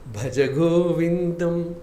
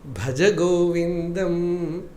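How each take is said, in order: No difference in how they are said.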